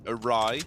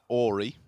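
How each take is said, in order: First: It ends with an 'eye' sound. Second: It ends with an 'ee' sound. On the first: The speaker calls it right. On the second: The speaker calls it wrong.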